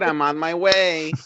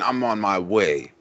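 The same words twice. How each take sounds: First: It is said in a plain, ordinary voice. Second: It is said in a tough, street-style voice. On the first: The speaker calls it wrong. "Don't say it like that" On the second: The speaker calls it right. "That that voice has got way more street cred"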